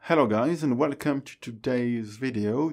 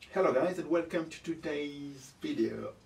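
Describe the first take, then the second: First: The voice sounds close, full and clear. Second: The voice sounds somewhat dull and thin. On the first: The speaker calls it right. "le son est largement mieux" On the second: The speaker calls it wrong. "Il est pas terrible en fait"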